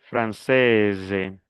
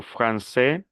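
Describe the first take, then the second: First: "française" falling, with a voiced z ending; sounded S. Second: "francés" slowly, ending on a rising é; silent final S. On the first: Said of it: "Pronuncio la S". ("française" pronunciando la s) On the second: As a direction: leave the s off "francés". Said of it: "sin la S". ("francés" sin la s final) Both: Shown as a demonstration.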